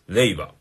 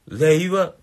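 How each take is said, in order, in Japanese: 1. 語の最後で音程が下がります。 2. 語の最後では音程が下がりません。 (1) "最後下がってます。" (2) "僕の令和は、令和、令和、平和読みです。"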